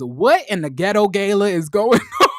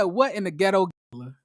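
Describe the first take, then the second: First: Laughing quote. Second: Said in the usual way. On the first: Retold or imitated. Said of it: "Winter says". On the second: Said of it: "she said".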